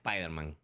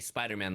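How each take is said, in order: First: An 'e' vowel is added before the 's'. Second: The word begins directly with an 's' sound. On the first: "they'll say; they add the E" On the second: "they won't say"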